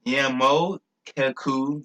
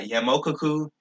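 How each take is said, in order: First: "Yamokuku" very slow, broken into syllables; sounding it out. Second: Said in the usual way. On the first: Shown as a demonstration. Speaker works out his own word "Yamokuku", slowly syllable by syllable. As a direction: draw out "Yamokuku" piece by piece.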